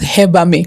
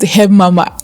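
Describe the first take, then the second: First: It begins like 'heb' and ends like 'amme'. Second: It begins like 'herb' and ends like 'mama'. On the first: The speaker calls it right. "it's pronounced herbame" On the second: The speaker calls it wrong. "it's not pronounced herb mama"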